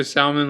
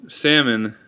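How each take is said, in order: First: "salmon" with the L sounded, "sal-mun"; joke pronunciation. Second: Said in the usual way. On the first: Shown as a demonstration. Vlogger says it to be funny, joke pronunciation. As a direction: pronounce the L in "salmon". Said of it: "when I'm trying to be funny". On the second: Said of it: "it's usually salmon".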